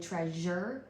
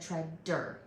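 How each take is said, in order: First: The middle consonant is a zh sound. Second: The middle consonant is a d sound. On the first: The speaker calls it right. "instead of saying j" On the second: The speaker calls it wrong. "she said duh"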